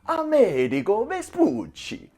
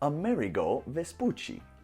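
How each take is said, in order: First: The name is said in an Italian accent. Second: The name is said in a plain English accent.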